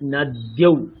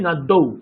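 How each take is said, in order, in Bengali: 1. d-এর পরে একটি স্পষ্ট y ধ্বনি আছে। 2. d দ্বিত্ব হয়, কোনো y ধ্বনি নেই। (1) "সংস্কৃতে এটাকে আমরা কিন্তু ইয়কারটাকে স্পষ্ট উচ্চারণ করে বলি" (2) "বাংলায় বলি নদ্দৌ"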